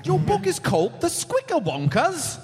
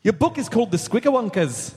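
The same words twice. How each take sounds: First: High-pitched attempt at a Scottish accent; badly faked Scottish accent. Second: Scottish attempt slipping into Irish; Irish accent. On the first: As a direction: have a comic go at Scottish, pitched up. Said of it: "Yeah, only try Scottish". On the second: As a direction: do a lilting mock Irish accent. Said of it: "Nope, that's Irish".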